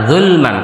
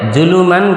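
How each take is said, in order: First: No vowel is heard after the l. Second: An extra vowel is heard after the l. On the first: The speaker calls it right. "লাম পেশ জুল হবে" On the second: The speaker calls it wrong. "জুলু হবে না"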